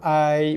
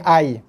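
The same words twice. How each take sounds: First: The ya glides softly and smoothly. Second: The ya is pronounced hard and abrupt. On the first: The speaker calls it right. "So lunakkan bacaan ya tu" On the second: The speaker calls it wrong. "bukannya ai"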